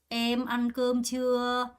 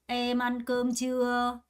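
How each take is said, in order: Both takes have the same delivery.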